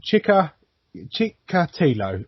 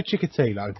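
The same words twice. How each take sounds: First: "Chikatilo" slowly, in halting pieces; "Chikatilo" broken up slowly, unsure of the name; sounding it out. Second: Said in the usual way. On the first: Real, not acted. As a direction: pick through "Chikatilo" syllable by syllable. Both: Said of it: "why did I choose Russian when their names are fucking long".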